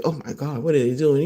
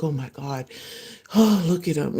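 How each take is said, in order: First: Disgusted. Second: Adoring. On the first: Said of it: "somebody else might look at them chew and be like". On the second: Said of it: "You're like". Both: Retold or imitated.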